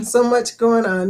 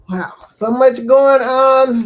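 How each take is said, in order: First: Said in the usual way. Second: Wow. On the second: Real, not acted. Reacting to sad chat news.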